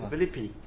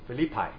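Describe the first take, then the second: First: It is said the Greek way, close to Chinese. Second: It is said with the usual English pronunciation. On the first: "She said it's Philippi" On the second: "she did not like the pronunciation of Philippi"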